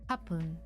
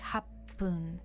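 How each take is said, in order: First: The p sound is short, single. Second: The p sound is held long, doubled. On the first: The speaker calls it wrong. "instead of" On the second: The speaker calls it right. "it's kind of written like you say the P twice"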